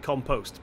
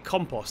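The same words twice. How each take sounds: First: Said the American way, second syllable like 'post'. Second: Said the British way, second syllable unlike 'post'. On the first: "I am going to side up with the Americans on this... technically it should be compost" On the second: "being from the U K, more specifically England, we say compost"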